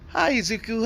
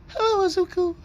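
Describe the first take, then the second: First: It is said in his normal voice. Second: It is said in a put-on female voice.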